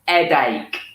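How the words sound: The h at the start is dropped.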